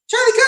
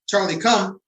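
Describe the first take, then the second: First: The call sounds frantic and pleading. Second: The call sounds calm and conversational. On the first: The dog ignores the command. The speaker calls it wrong. "a lot of people may go and say" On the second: The dog knows what it is supposed to do. The speaker calls it right. "in a normal conversation tone"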